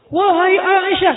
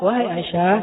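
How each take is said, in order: First: It is said loudly, like a preacher. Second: It is said softly and gently.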